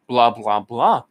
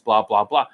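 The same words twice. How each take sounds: First: It sounds arrogant and overconfident. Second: It sounds steady and confident.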